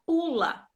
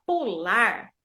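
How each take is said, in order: First: Pula stressed on the first syllable, PU; tônica no PU. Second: Pular stressed on the final LAR; tônica no LAR. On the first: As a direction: hit PU, let LA drop in pula. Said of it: "a sílaba mais forte é o pu". ("pula" com ênfase na primeira sílaba, PU) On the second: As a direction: lean on LAR at the end of pular. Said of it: "a sílaba mais forte é o lar". ("pular" com ênfase na última sílaba, LAR) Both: Shown as a demonstration.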